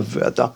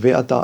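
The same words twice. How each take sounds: First: No vowel is heard after the first consonant. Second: A short vowel is heard after the first consonant. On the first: The speaker calls it wrong. "et pas ve'ata" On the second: The speaker calls it right. "un sheva en début de mot se prononce, donc ve'ata"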